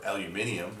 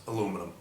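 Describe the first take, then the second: First: "aluminium" as al-yoo-MIN-ee-um; British pronunciation. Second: Said in the usual way. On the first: Shown as a demonstration. Video host adds how the British say the metal, British "aluminium". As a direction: give "aluminium" its extra British syllable. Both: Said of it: "as the British would say".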